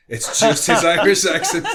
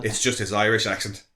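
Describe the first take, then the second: First: Laughing. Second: Said in the usual way. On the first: Real, not acted. To friends, repeating the Irish accent joke, laughing. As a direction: repeat it higher and louder, breaking into a laugh.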